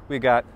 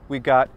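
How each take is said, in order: No difference in how they are said.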